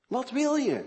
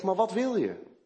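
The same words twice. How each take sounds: First: "Wat wil je?" much higher and louder, "wil" hit hard; pressing challenge. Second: Said in the usual way. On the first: Retold or imitated. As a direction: push him for an answer. Repeated challenge, pitch jumps up.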